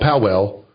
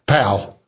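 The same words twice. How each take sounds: First: The name is said like 'pow-ell'. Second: The name is said like 'pal'. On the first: This is how outsiders say the name. The speaker calls it wrong. "which foreign people like you would call Powell, P-O-W-E-L-L" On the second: This is how locals say the name. The speaker calls it right. "they pronounce it Powell. P-A-L"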